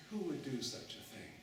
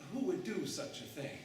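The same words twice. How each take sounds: First: Said in the usual way. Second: Sube la voz en el quién, indignado; Who dicho más alto, escandalizado; shocked outrage. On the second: Shown as a demonstration.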